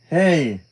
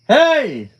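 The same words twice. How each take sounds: First: It is said at normal volume. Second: It is said loudly.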